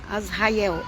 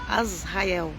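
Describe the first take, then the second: First: The name starts directly with a vowel sound. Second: The same.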